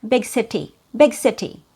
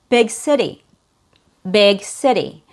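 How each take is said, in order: First: "big city" with a fully sounded T in "city"; no flap, a crisp t in "city"; true T. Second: "big city" with the t as a quick d; American fast D. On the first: Teacher showing what Americans don't say, true T in "city". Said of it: "we don't say". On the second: Teacher modelling the phrase "big city" for learners, fast D. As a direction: flap the t in "city", American style. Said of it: "in the American accent". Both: Shown as a demonstration.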